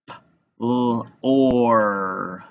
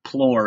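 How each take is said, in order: First: P, l, or said apart, or held long; tapped-out sounds. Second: Said in the usual way. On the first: Shown as a demonstration. Teacher tapping out plore, segmented. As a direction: break plore into P... l... or. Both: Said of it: "gonna tap out plore".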